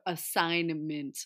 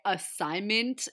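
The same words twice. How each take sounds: First: The N sound in the middle is pronounced. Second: The N sound in the middle is dropped. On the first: The speaker calls it right. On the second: The speaker calls it wrong.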